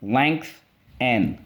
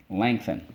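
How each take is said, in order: First: "Length, n" as two separate beats; "Length" and "n" chanted apart; syllable by syllable. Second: Said in the usual way. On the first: Shown as a demonstration. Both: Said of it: "Let's go".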